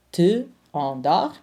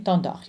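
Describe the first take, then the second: First: Te endors as two separate words; Te, then endors, unlinked; unelided demo. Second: T'endors joined, no vowel after the t; t'endors as one connected word; elided into one word. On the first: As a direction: keep the "tuh" of Te apart before endors. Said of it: "Te endors became t'endors". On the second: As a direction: run the t straight into endors. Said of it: "became t'endors". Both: Shown as a demonstration.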